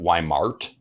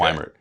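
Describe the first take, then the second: First: The last syllable rhymes with art. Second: The last syllable rhymes with Bert. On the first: The speaker calls it wrong. "But I get Weimart" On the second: The speaker calls it right. "I pronounce it Weimert"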